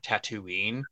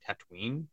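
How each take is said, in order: First: The middle ooh vowel is kept. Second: The middle ooh vowel is dropped. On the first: The speaker calls it wrong. "I think that sounds so much better than Tatooine" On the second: The speaker calls it right. "they skip the ooh, they just go Tatooine"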